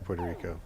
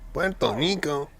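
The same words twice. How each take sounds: First: It is said with an English-style pronunciation. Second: It is said with a Spanish-style pronunciation. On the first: The speaker calls it wrong. "We can't say Puerto Rico" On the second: The speaker calls it right. "we have to be like Puerto Rico"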